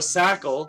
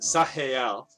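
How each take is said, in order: First: The middle consonant is a hard k sound. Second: The middle consonant is a throaty German-style sound. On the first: "like you know Michael" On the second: "like the Germanic"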